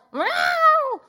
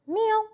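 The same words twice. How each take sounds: First: Much higher, louder mock yowl; protesting cat meow. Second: Calm cat meow. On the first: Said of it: "she wasn't like". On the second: Retold or imitated. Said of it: "But it wasn't protesting".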